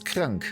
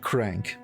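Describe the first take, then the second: First: It is said as the German word. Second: It is said like the English word crank. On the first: The speaker calls it right. "you can use krank" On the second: The speaker calls it wrong. "not crank. Please don't pronounce it crank"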